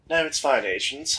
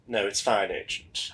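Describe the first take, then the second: First: It is said in a new, different character voice. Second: It is said in the previous character's voice.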